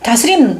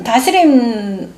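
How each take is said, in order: First: Said in the usual way. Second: 다스림 stretched slowly, each syllable held; drawn-out emphasis. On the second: Shown as a demonstration. Preacher savoring the word 다스림 for the congregation, drawn out. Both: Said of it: "repeats word, second slowed".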